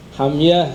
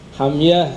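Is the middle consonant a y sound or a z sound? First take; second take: y sound; y sound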